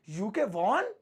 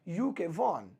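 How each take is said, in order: First: It sounds like a surprised, questioning exclamation. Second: It sounds like a plain, matter-of-fact statement. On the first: The speaker is asking in shock whether it is true. "वो चौंक के ऐसा पूछ रहे हैं क्या ऐसा है" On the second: The speaker is reporting that the victory happened. "अगर मैं फुल स्टॉप लगा दूं तो ऐसा हो जाएगा"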